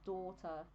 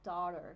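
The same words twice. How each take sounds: First: The final r sound is dropped. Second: The final r sound is clearly pronounced. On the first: This is how the speaker's own accent says it. "not daughter" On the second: This is how an American speaker says it. "when you say daughter, it's like daughter"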